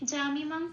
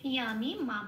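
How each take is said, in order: First: The word begins with a j sound. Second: The word begins with a y sound. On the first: This is the Bengali reading. "এটা আমি বাংলায় বললাম" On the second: This is closer to the Sanskrit reading. "যা তো বলতে পারবো না, বলবো ইয়া"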